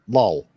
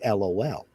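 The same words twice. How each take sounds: First: It is said as a single word. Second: It is spelled out letter by letter. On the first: This is how people in the UK say it. "They'll actually say the word lol" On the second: This is how people here say it. "that's what they say"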